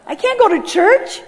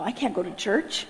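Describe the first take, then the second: First: High, louder, drawn-out protest; alarmed protest. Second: Low, soft muttered protest; hushed refusal. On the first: Balking at God's idea of church, high mock-horrified. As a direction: wail it in mock alarm, pitched up. Repeats refusal, now in open alarm. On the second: Balking at God's idea of church, muttered low. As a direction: mutter it under your breath, low. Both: Retold or imitated.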